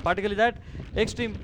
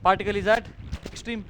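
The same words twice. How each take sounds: The two takes are said the same way.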